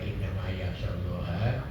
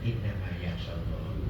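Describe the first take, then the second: First: The word Allah ends with an a vowel. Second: The word Allah ends with a u vowel. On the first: Those who fear God are the learned. "boleh dibaca dua" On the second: God honors the learned. "sesungguhnya Allah memuliakan"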